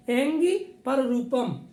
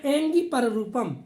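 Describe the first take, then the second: First: "angry पररूपम" spoken slowly and deliberately; slow recitation. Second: Said in the usual way. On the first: Shown as a demonstration. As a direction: drag out the sutra for students to memorise. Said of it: "teacher repeats the sutra slowly". (सूत्र को धीरे-धीरे दोहराना) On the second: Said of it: "teacher repeats the sutra".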